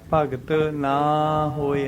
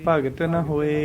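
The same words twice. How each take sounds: First: The vowel in 'na' is drawn out long. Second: The vowel in 'na' is said very short. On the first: The speaker calls it wrong. "ਨਾ ਹੋਏ ਐ ਨਹੀਂ ਕਹਿਣਾ ਗਾ" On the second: The speaker calls it right. "ਨੰਨੇ ਨੂੰ ਥੋੜਾ ਜਿਹਾ ਬੋਲ ਕੇ ਛੱਡ ਦੇਣਾ"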